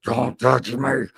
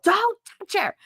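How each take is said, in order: First: Low, slow growl of a warning. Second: High-pitched mock yell; retold yell, pitched way up; imitated yell. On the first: Retold or imitated. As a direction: imitate a strange voice forced out mid-panic. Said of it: "where'd that voice come from?". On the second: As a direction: yelp it out like an urgent warning. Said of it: "and G yelled".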